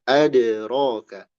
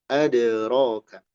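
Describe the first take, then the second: No difference in how they are said.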